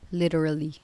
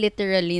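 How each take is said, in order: First: It is said with an American-style accent. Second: It is said with a Filipino konyo accent.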